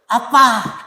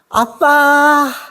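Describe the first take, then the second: First: It is said in a warm, friendly tone. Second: It is said in a coy, cutesy tone.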